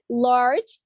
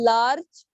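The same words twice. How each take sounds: First: LARGE with tongue curled to the palate; teacher demonstrating "large" with a curled L. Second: LARGE with an uncurled, ordinary L; teacher showing "large" without the curled L; normal L. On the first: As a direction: model the L in "large". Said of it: "it sounds like that". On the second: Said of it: "normal L पढ़ेंगे". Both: Shown as a demonstration.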